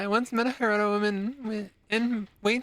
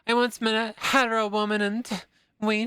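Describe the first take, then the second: First: It is read while breaking into laughter. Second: It is read seriously, without laughing.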